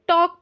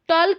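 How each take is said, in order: First: The word is said without an L sound. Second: The word is said with an L sound. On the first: The speaker calls it right. "एल silent रहता है" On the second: The speaker calls it wrong. "टॉल्क नहीं पढ़ेंगे"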